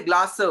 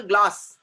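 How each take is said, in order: First: "glass" with an extra vowel at the end, glass-o; wrongly added syllable. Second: Said in the usual way. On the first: Shown as a demonstration. Teacher showing what we don't say, "glass" forced into glass-o. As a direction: tack a second syllable onto "glass". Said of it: "We don't say". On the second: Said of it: "one syllable word".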